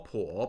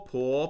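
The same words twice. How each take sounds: First: The pitch dips low then rises. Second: The pitch rises from middle to high.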